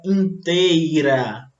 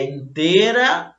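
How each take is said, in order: First: Inteira said slowly as in-tei-ra; drawn-out ei glide in "inteira"; correct pronunciation demo. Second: Inteira said as intêra, no i glide; the incorrect "inteira", plain e intêra; wrong pronunciation demo. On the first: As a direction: say "inteira" with a full ei diphthong. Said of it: "é inteira". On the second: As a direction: say "inteira" slowly, dropping the i after e. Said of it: "o correto". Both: Shown as a demonstration.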